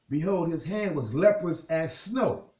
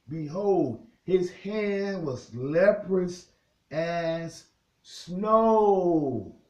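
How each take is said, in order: First: It is said at normal speed. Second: It is said very slowly.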